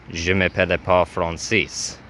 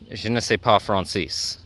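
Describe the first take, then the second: First: "je m'appelle pas Francis" with "m'appelle" in the middle; learner's French, "Francis" said as fron-SEES; mistaken French phrase. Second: "je ne sais pas Francis" with "ne sais" as nuh-say; learner's French, "Francis" said as fron-SEES; corrected French phrase. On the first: Retold or imitated. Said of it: "that's not correct". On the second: Shown as a demonstration. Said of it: "is how you say".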